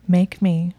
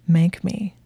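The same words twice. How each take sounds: First: Louder, teasing dare; taunting. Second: Hushed, teasing dare; taunting whisper. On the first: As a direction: throw the dare back at him. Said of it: "she said in a taunting voice". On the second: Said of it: "his eyes glittering and taunting". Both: A narrator's reading.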